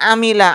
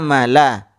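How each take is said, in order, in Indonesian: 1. Vokal setelah m adalah 'i'. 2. Vokal setelah m adalah 'a'. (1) "bukan amila" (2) "Jadi yang betul bacaannya amala"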